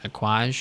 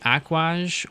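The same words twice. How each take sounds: First: The name is said in one syllable. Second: The name is said in two syllables. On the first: "or one syllable" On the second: "you can either do it two syllables"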